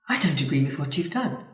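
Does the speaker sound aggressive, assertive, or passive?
assertive. The voice sounds firm, calm and confident. The speaker calls it right. "which is what you'd call assertive"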